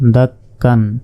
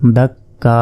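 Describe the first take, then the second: First: The word ends with an n sound. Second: The word ends with a long open vowel. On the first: The reading continues past the word. "কাব দুই জবর কান" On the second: The reader stops on this word. "এইখানে যদি আমরা ওয়াকফ করি"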